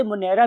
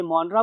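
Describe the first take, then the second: First: मोनेरा said as mo-NE-ra; variant pronunciation. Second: मोनरा said as MON-ra; variant pronunciation. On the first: Teacher showing students the other variant, मोनेरा as mo-NE-ra. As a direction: say मोनेरा in three syllables with a clear "ne". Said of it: "बहुत से लोग इसे मोनेरा भी बोलते". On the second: Teacher showing students one common variant, मोनरा as MON-ra. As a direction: say मोनरा with stressed "mon" and no "ay" vowel. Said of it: "बहुत से लोग इसे मोनरा बोलते हैं". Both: Shown as a demonstration.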